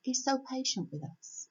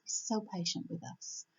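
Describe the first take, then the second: First: Said in the usual way. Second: Same line again, much softer, sincere; softer repeat. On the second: Real, not acted. God's patience repeated quietly to the listeners. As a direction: let it sink in gently.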